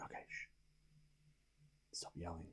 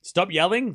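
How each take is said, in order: First: Hushed, unvoiced whisper. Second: Said in the usual way. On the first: Real, not acted. Told to stop yelling, repeating it in a whisper. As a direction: drop to a bare whisper so no one hears. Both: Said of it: "I'll stop yelling".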